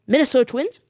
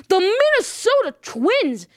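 First: Incredulous rising question; mock disbelief. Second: High, drawn-out triumphant announcement; dramatic reveal. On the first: Viewer questions the host's shock pick, mock disbelief. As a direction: query the name like a doubting viewer. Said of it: "You're saying". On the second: Real, not acted. Host shocks viewers with his World Series pick, dramatic reveal. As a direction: stretch out the big surprise pick.

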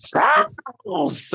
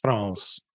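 First: Imitating the contestant, "France." leaps far higher with the voice cracking; cracking shriek. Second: Much lower and much softer, a flat understated "France."; low-key delivery. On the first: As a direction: squeal "France." so high the voice breaks. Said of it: "she comes in and just like". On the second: Retold or imitated. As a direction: murmur "France." as if it barely mattered. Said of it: "she was gonna be like".

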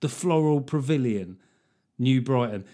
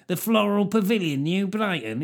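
First: Said in the usual way. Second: Higher, scornful northern voice; a northerner saying the venue name with contempt; contemptuous northerner. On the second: Shown as a demonstration. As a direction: sneer it like a northerner who looks down on it. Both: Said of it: "something a northerner would say with contempt".

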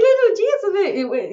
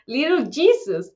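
First: Put-on "Little Jesus" slow and higher in a Colombian accent. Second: Said in the usual way. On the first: Podcaster quotes Gloria in a Colombian accent. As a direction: say "Little Jesus" like Sofía Vergara would. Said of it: "Y ella dice". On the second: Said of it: "Y llegan".

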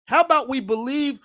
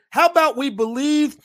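No difference in how they are said.

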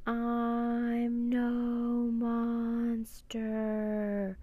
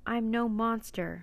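First: Very slow, higher, chanted on long notes; eerie creature wail. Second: Clear, slightly raised spoken voice; ringing repeat. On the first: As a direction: stretch every word like a mournful sea creature. Giant octopus speaks eerily. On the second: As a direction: repeat it clearly for the crowd, rather slowly. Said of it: "Annie's voice rang through the silence". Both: A narrator's reading.

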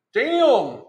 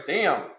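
First: Damn, higher and louder with a falling tune; surprised damn. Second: Said in the usual way. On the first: Real, not acted. Learning the stock is nearly gone, a higher, louder surprised damn. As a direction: blurt out damn in real surprise. Reacting to low stock alert.

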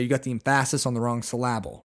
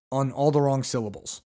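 First: "emphasis" and "syllable" stressed on their second syllables; misplaced syllable stress. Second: Said in the usual way. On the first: Retold or imitated. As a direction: say em-PHA-sis for "emphasis", syl-LA-ble for "syllable". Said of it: "as my English teacher used to say". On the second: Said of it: "or the wrong emphasis".

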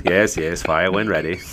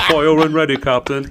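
First: Lightly voiced British captain, measured; understated British naval accent; second British captain. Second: High, loud British command; excitable British naval bluster; cocky British officer. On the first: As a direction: give a composed British officer's reply. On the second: Acted. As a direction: shout the order as a hammed-up British general. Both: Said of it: "There's a couple different captains".

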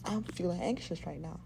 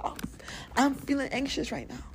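First: Said in the usual way. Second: Demo of saying it. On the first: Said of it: "Recognize what's going on". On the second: Shown as a demonstration. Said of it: "Scream it to the fucking window".

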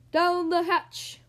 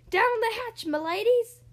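First: Loud, slow, drawn-out cheer; long, high echoing toast; crew shout. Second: High, loud hearty toast; loud rallying pirate cry; pirate captain's yell. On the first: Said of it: "we all shouted". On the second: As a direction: yell it down the table. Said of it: "pounded his fist on the table and yelled". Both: A narrator's reading.

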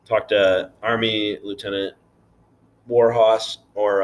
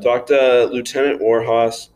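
First: Slow stress on "Army Lieutenant"; corrected title. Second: Slow, louder plug; mock announcement. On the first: Real, not acted. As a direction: spell out "Army Lieutenant Warhorse" slowly and firmly. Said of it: "Petty Officer's Navy". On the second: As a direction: call it out like an ad. Announcing the recruiter, playful.

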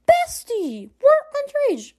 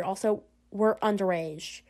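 First: High-pitched, scandalised squeal; mock-shocked protest. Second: Slow, soft, lower-key objection; muttered afterthought. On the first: Friend objecting to smuggled wine, high-pitched and scandalised. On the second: Acted. Friend adding one more objection to the wine, soft and slow. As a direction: let it drop quietly, slowly.

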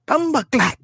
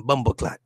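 First: High-pitched mock Jamaican squawk; Jamaican accent. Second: Said in the usual way. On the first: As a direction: squawk it in exaggerated patois. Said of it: "talking that Jamaican accent". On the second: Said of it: "just say one time".

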